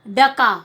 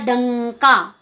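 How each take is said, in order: First: The first syllable has no nasal sound. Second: The first syllable has a nasal sound.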